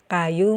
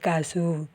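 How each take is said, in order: First: It is said with a y sound, standard style. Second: It is said with a z sound, mountain style.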